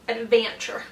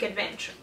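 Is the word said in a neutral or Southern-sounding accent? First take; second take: Southern; neutral. First: It is said in a Southern-sounding accent. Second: It is said in her ordinary accent.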